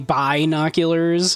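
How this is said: The word is said in a put-on accent. One character is speaking. "with the with the accent"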